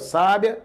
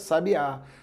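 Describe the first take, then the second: First: The stress is on the first syllable. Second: The stress is on the last syllable.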